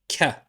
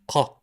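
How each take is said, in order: First: It starts with a plain k sound. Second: It starts with a thick, deep k sound. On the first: This is how some dialects say it. "like the letter K" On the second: This is the official standard pronunciation. "like a thick ka"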